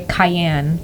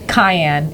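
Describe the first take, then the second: First: The stress is on the second syllable. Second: The stress is on the first syllable. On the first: "You just emphasize the second half" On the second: "I always emphasize the first half"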